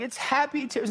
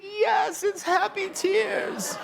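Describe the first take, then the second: First: Fiancée's voice. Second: Put-on very high, slow, drawn-out little-girl echo; child's voice. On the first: Retold or imitated. Diane comforting her crying daughter, high and gentle. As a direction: gently explain it to the child in a lifted voice. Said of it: "And then Diane's going". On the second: Daughter echoing her mother after the proposal, very high and slow. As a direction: echo it back like a tiny child, stretched and squeaky. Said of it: "And she's like".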